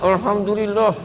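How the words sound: It sounds grudging and annoyed, said reluctantly.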